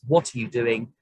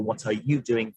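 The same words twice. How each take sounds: First: WHAT carries the emphasis, asking about the activity; stress on WHAT. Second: YOU carries the emphasis, focusing on the person; stress on YOU. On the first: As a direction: punch the opening word WHAT. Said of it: "as in asking exactly what the activity is". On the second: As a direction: put the weight on YOU. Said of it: "focusing on the person". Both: Shown as a demonstration.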